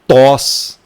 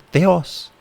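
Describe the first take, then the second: First: Only an o vowel follows the t. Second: An e then an o follow the t. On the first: The speaker calls it wrong. "você não vai falar aqui tos" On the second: The speaker calls it right. "aqui é literalmente teos"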